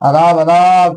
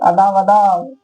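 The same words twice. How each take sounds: First: The voice is deep and heavy. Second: The voice is light and high. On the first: A grown man is speaking. "आवाज पुरुषों का भारी हो जाता है" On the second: A grown woman is speaking. "स्त्रियां वही लगती है निमिया के बोलने"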